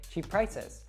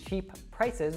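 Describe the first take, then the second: First: The two P sounds merge into one. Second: Both P sounds are pronounced separately. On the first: The speaker calls it right. "So we drop that first P and then we link them together" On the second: The speaker calls it wrong. "instead of saying"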